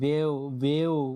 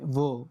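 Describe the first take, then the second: First: It is split into two separate vowel sounds. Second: It is said as a single syllable. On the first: The speaker calls it wrong. "বলা যাবে না, উচ্চারণ ভুল হবে তাহলে" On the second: The speaker calls it right. "এখানে কিন্তু বে বলি নাই আমি"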